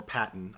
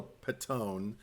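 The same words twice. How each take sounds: First: "Patton" with a short, unstressed ending, PAT-n; alternative pronunciation. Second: "Patton" with a long, drawn-out second syllable, pa-TONE; alternative pronunciation. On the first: Host offering another surname reading, "Patton" as PAT-n. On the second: Host unsure of an actress's surname, "Patton" as pa-TONE. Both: Shown as a demonstration. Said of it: "don't know how to pronounce it".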